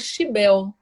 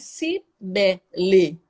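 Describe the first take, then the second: First: It starts with SH and drops the final vowel. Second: It starts with S and ends with a vowel.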